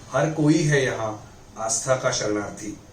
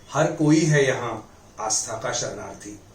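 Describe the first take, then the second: Both takes have the same delivery.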